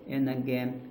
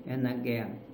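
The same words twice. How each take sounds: The two takes are said the same way.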